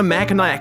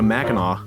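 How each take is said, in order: First: It is pronounced the way an outsider says it. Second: It is pronounced the way a local says it. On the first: A visitor unfamiliar with the place is saying it. The speaker calls it wrong. "We're going to Mackinac Island" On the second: Someone from the area is saying it. The speaker calls it right. "No, you're going to"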